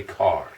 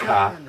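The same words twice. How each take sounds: First: Car ending on a full r; r pronounced. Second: Car as "kah", no final r; dropped r. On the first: Contrasting how some people say it, car with a clear r. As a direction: finish car on a sounded r. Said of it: "some people say car". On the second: Contrasting how some people say it, car without the r. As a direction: leave the r off car. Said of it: "Some people say car". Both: Shown as a demonstration.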